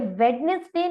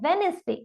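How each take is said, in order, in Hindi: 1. बीच में 'd' की आवाज़ सुनाई देती है। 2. बीच में 'd' की आवाज़ सुनाई नहीं देती। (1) "ये वेडनेसडे नहीं है" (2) "साउंड ऑफ डी यहाँ पर साइलेंट रहने वाला है"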